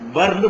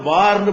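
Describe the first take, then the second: First: The first vowel is cut short. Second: The first vowel is held long. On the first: The speaker calls it right. "பர்ந்து படிக்கணும்" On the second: The speaker calls it wrong. "இத பார்ந்து படிக்க கூடாது"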